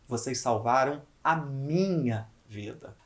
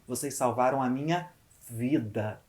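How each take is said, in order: First: The word minha carries the emphasis. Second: The word vida carries the emphasis. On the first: It was my life saved, not someone else's. "Agora eu vou valorizar a palavra minha" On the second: It was a life saved, not a job or file. "Eu valorizo a palavra vida"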